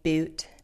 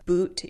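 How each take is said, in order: First: The vowel is the shifted California vowel. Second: The vowel is the usual American vowel. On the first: "you're getting boot" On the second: "Instead of boot"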